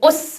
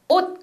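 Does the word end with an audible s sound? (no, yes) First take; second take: yes; no. First: The word ends with an audible released s sound. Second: The final consonant is held, with no s sound. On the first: "영국 사람한테 가르치면 ... 옷 이렇게 발음해요" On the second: "옷 그러면"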